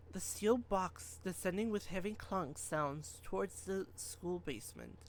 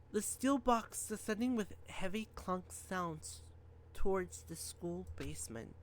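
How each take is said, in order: Both takes have the same delivery.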